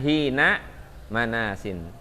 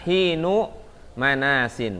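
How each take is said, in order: First: The first word ends with an 'a' vowel. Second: The first word ends with a 'u' vowel. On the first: The word is the predicate of the sentence. "Kalau ini kan hina manasin" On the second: The word is the subject of the sentence. "kata hinnya diropakan"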